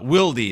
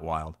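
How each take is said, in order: First: The name ends with an 'ee' sound. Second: The name ends without an 'ee' sound. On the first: This is how the person says his own name. The speaker calls it right. "Wildy is how he pronounces it" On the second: This is not how the person says his own name. The speaker calls it wrong. "not Wild"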